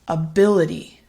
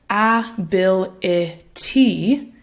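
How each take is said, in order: First: Said smoothly, with reduced syllables and a soft d. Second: Each syllable is said separately with a clear t. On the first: The speaker calls it right. "it sounds like" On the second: The speaker calls it wrong. "instead of"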